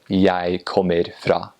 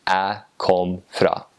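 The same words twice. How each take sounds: First: Slow Eastern Norwegian, "Jeg" as "yai", full "kommer"; Eastern Norwegian dialect. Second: "Jeg kom" chopped to a bare "æ kom", slow Northern Norwegian; Northern Norwegian dialect. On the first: Contrasting with the Northern form, slow Eastern Norwegian dialect. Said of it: "instead of". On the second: Contrasting with the Eastern form, slow Northern Norwegian dialect. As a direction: say it slowly in North Norway dialect. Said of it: "in Northern dialect, they would just say". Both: Shown as a demonstration.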